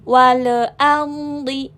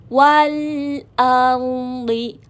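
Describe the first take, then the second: First: The phrase is read quickly, rushing the sounds. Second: The phrase is read slowly, holding the sounds. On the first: The speaker calls it wrong. "bukan wal ardi. Itu makanya jangan buru-buru bacanya" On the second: The speaker calls it right. "tahan dulu ya"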